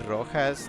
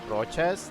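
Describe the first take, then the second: First: The middle consonant is sounded as h. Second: The middle consonant is sounded as ch. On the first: It becomes the word for red. "if you say Rojas, that's just red" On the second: It becomes a last name. "change the pronunciation to like like Rochas"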